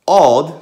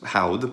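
First: The word begins directly with the vowel. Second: The word begins with an h sound. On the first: This is the later, vulgar pronunciation. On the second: This is the earlier, classical pronunciation.

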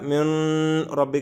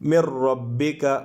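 First: The n is kept with a nasal hum. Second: The n merges into the r without nasal hum. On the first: The speaker calls it wrong. "മിൻ റബ്ബിക എന്നുമല്ല ... അങ്ങനെയല്ല" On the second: The speaker calls it right. "എങ്ങനെയാണ്? ... ഇദ്ഗാം ചെയ്യണം, ഉന്നത്ത് ചെയ്യരുത്"

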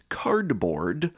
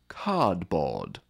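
First: The R sounds after each vowel are pronounced. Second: The R sounds after each vowel are dropped. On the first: The speaker is from a rhotic region like the States. "the former would say" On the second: The speaker is from a non-rhotic region like England. "the latter would say"

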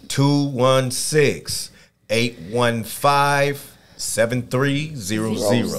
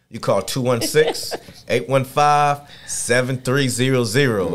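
First: The number is said slowly. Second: The number is said at normal speed.

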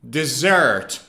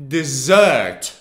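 First: The stress falls on the second syllable. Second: The stress falls on the second syllable.

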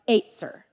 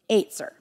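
First: It has a Hebrew-style pronunciation with a tongue twist. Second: It has a Hebrew-style pronunciation with a tongue twist.

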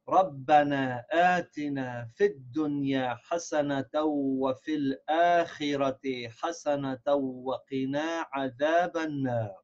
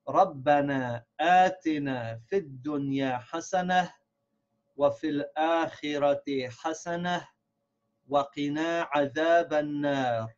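First: It is read as one sentence without pauses. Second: It is read as three phrases with pauses.

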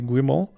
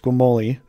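First: The final E is silent. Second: The final E is pronounced as a vowel. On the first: "I think it's silent" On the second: "some people might say it's Guimoli"

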